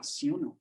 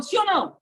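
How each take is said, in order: First: Low, soft, half-hearted answer; weak audience reply. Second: High, punchy check-in question; calling to the audience. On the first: Acted. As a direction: answer feebly, like an unconvinced crowd. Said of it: "Aí a pessoa vai falar". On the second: Shown as a demonstration. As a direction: toss it out loud to the room. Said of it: "Você tá entendendo o que eu tô falando?".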